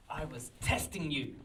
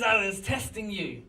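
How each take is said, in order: First: Measured mock-dramatic reveal; priest's reveal. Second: Higher, louder incredulous re-quote; amused mock reveal. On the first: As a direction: deliver it as a knowing revelation. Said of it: "he turns around and he says". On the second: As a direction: repeat his reveal in amused disbelief. Storyteller re-quotes the supposed lunatic, amused.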